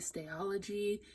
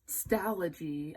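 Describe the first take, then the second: First: The word is said with an extra syllable. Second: The word is said without the extra syllable. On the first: The speaker calls it wrong. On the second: The speaker calls it right.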